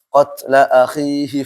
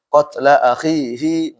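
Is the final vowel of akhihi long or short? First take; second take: short; long. First: The final vowel of akhihi is short. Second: The final vowel of akhihi is long. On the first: The speaker calls it right. "secara umum dibaca pendek. Contohnya seperti ini" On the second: The speaker calls it wrong. "nggak boleh"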